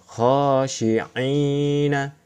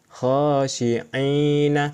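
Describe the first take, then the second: First: The vowel after 'ain' is held long. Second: The same.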